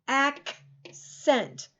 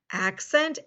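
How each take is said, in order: First: "Accent" broken after a crisp K, then "sent"; split into sounds. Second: Said in the usual way. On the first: Shown as a demonstration. Teacher letting pupils hear both C sounds, split apart. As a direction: say "Accent" in two separated parts, ak, sent. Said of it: "the first C is a K sound". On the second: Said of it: "There's something else".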